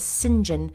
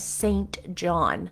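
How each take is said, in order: First: The name is said in a contracted form. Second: The name is said in full, as spelled. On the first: This is how the name is actually spoken. "I have heard it said and pronounced as St. John" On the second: This is how the name is written. "is written out as St. John"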